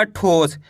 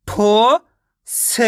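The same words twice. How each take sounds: First: Said in the usual way. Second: ठो-स very drawn out with a gap; ठो-स in separate long sounds; syllable by syllable. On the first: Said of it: "मिलके बन जाएगा". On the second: Shown as a demonstration. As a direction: sound out ठो rising, pause, then स. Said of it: "एक अक्षर का उच्चारण करके".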